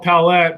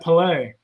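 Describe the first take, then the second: First: The name ends with an 'et' sound. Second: The name ends with an 'ay' sound. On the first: The speaker calls it wrong. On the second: The speaker calls it right.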